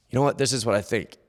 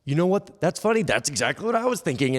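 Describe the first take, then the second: First: Lightly acted first side of a self-conversation; man talking to himself. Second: Higher-pitched second voice agreeing with the first; himself answering back. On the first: Rich man sharing his thought with himself, lightly acted. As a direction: open a little chat with yourself in your own voice. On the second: Acted. Rich man replying to himself in a higher agreeing voice. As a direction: answer yourself in a raised, agreeing voice. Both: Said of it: "he and himself have this conversation".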